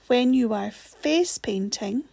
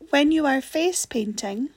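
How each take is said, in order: First: It is read more slowly. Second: It is read at normal speed.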